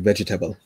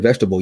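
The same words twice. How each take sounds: First: The word is said in a West Indian accent. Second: The word is said in a standard American accent. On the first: "you say" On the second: "You don't say"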